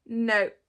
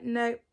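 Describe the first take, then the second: First: Much louder, final falling no; emphatic refusal. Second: Louder mock no; firm refusal. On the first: Retold or imitated. Mum refusing the school sleepover, louder and final. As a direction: slam the door on it. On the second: Mum turning down the school hall sleepover, firm. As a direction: shut it down. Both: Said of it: "I'm like".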